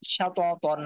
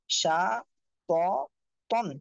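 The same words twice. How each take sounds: First: সা ত তন run together as one word; joined-up reading. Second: সা, ত, তন one by one with clear gaps; broken-up syllables. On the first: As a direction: read সা ত তন straight through without gaps. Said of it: "reading". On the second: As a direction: pause after each of সা, ত and তন. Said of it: "একটা একটা করে পড়বেন". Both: Shown as a demonstration.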